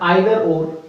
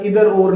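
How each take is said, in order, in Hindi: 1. Either की शुरुआत 'eye' ध्वनि से होती है। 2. Either की शुरुआत 'ee' ध्वनि से होती है।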